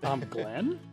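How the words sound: The voice falls at the end like a statement. It sounds like a plain statement. The speaker calls it right. "Let's do it again where I don't sound like I'm asking a question"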